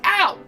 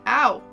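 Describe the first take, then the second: First: It is said with full dramatic energy. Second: It is said flatly, with little energy. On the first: The actor gives the line full effort. "instead of like" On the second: The actor is holding back effort. "I'm like"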